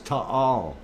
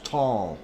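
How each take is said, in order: First: It is said as two syllables. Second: It is said as one syllable. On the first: The speaker calls it right. "It's two syllables" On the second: The speaker calls it wrong. "that is not the way ... that it's pronounced"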